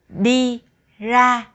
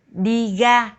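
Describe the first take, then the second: First: Ra begins with an r sound. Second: Ra begins with a g sound.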